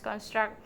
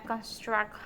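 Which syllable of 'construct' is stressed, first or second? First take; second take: second; first. First: The stress is on the second syllable. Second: The stress is on the first syllable. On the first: It is used as a verb. "verbal stress pattern where the st- stress falls on the second syllable" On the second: It is used as a noun. "nominal stress pattern where the stress falls on the first syllable"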